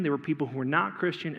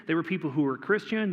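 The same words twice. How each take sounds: First: Not leaned on a little, dropping on Christian; stress on not. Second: Said in the usual way. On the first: Shown as a demonstration. To the congregation, contrasting the two groups, stress on not. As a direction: tap the word not to set it against the line before.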